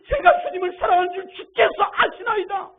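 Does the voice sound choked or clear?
clear. It is said in a clear, awakened voice.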